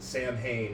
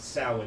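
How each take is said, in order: First: It is said letter by letter, as spelled. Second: It is said the traditional way, unlike spelling. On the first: The speaker calls it wrong. "They pronounce it Sam Hain, and it always annoys" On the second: The speaker calls it right. "but it's pronounced Samhain"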